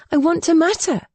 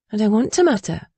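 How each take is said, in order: First: High, emphatic plea to matter; pleading. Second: Said in the usual way. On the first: Acted. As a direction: insist on it with rising passion. Repeated line, stronger take. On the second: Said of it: "[name] stresses her wish".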